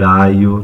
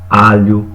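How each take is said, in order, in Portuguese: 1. O 'lh' vira uma semivogal 'i'. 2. O som palatal 'lh' é pronunciado.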